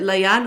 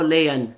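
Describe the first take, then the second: First: Layan with first syllable like "lie"; checking name pronunciation. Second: Layan with first syllable like "lay"; alternative name pronunciation. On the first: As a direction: say Layan as "lie-AN", open second vowel. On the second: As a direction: say Layan as "LAY-un", weak second vowel. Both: Shown as a demonstration. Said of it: "did I say that correctly?".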